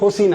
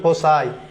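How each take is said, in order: First: The word ends with an 'ee' sound. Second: The word ends with an 'eye' sound. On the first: The speaker calls it wrong. "এর উচ্চারণ কিন্তু ফসি না" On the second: The speaker calls it right. "এর উচ্চারণ হবে ফোসাই"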